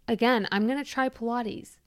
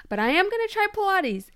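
First: Said in the usual way. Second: "am" and "try" stressed, pitch jumping much higher; much higher, emphatic vow; emphatic promise. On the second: Real, not acted. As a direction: insist on it, "I am gonna try Pilates".

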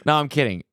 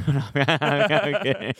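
First: Said in the usual way. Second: Slow, laughing take-back. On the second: Real, not acted. Taking back a joke to viewers, laughing slowly. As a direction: laugh through the retraction. Joking after "You're right.

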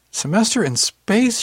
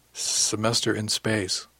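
First: High, loud, drawn-out disbelief; incredulous echo. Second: Slow, glum admission; miserable. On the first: Aunt repeating nephew's excuse back, incredulous. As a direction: throw it back slowly, pitched way up. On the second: Nephew owning up to his aunt, miserable. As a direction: drag it out miserably. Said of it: "he said miserably". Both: A narrator's reading.

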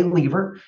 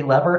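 First: "lever" said LEE-ver, long ee; Canadian pronunciation. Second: "lever" said LEV-er, short e; US pronunciation. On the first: Guest reporting how Canadian colleagues say it, "lever" as LEE-ver. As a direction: say "lever" to rhyme with beaver. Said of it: "In Canada". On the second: Guest reporting how US colleagues say it, "lever" as LEV-er. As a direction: say "lever" to rhyme with never. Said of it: "and in the U S". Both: Shown as a demonstration.

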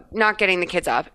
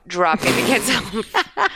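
First: Said in the usual way. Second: Slow, deliberate "dropping" to correct the wrong word; "dropping" stretched out in self-correction; stress on dropping. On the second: Real, not acted.

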